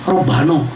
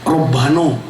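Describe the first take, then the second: No difference in how they are said.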